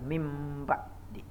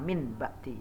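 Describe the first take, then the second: First: The nasal before b becomes an m. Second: The nasal before b is a clear n. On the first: The speaker calls it right. "tapi mim ba di" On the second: The speaker calls it wrong. "bukan min ba di ya"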